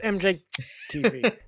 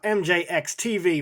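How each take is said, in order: First: The letter X is left out of the name. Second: The letter X is spoken in the name. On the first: "You don't say the X" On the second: "Is it is it N J X T V"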